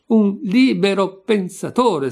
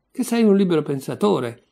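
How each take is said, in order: First: "libero pensatore" drawn out syllable by syllable, high and loud; slow emphatic repetition. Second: Mildly indignant, at a running pace; indignant accusation. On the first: Hammering the accusation at Senka, "libero pensatore" slow and emphatic. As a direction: spell out "libero pensatore" slowly, hitting each part. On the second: Accusing Senka of free thinking, mild indignation. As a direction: throw the accusation out in one go. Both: A narrator's reading.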